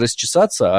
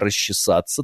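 First: It is said in the usual standard pronunciation. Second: It is said in the old Moscow pronunciation. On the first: "Не расчесаться" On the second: "а расчесаться"

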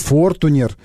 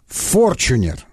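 First: The middle consonant is a plain t sound. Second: The middle consonant is a ch sound. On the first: The speaker calls it wrong. "Не Фортунер" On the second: The speaker calls it right. "а Форчунер. Вот так он произносит"

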